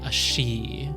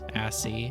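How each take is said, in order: First: The middle consonant is an sh sound. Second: The middle consonant is a plain s sound. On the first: "If you want to sound fancy, you can say a she" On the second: "it just sounds like I'm saying ass"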